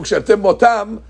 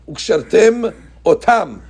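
First: The two words run together without a break. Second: The two words are kept apart with a break.

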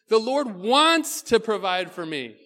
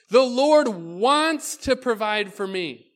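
No difference in how they are said.

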